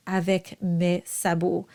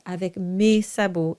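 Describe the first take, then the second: First: "avec mes sabots" with "mes" as an open eh, like "meh"; older classical "mes", open vowel; open eh sound. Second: "avec mes sabots" with "mes" like "may"; closed A sound. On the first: Coach advises singers on older songs, open eh. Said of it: "stick to the eh sound". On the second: Coach gives what a conductor may ask, closed e. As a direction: modern spoken-French "mes", closed e. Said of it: "if your conductor asks". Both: Shown as a demonstration.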